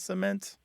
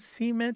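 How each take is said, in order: First: It uses the Canadian standard pronunciation. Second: It uses the Southern US dialect pronunciation. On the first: It is how the Canadian spouse expects it. "instead of cement" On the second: It marks the speaker as coming from the American South. "why do you say cement"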